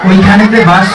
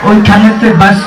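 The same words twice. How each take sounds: The two takes are said the same way.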